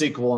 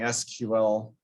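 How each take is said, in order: First: It is said as one word, sequel. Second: It is spelled out letter by letter. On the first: "throw in some vowels in there so they could easily pronounce" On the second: "instead of saying"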